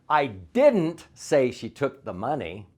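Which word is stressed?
didn't. The word didn't is stressed.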